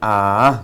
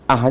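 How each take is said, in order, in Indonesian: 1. Bunyinya diucapkan panjang. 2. Bunyinya pendek dan terpotong. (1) "apalagi ah panjang" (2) "Ah pendek aja nggak boleh"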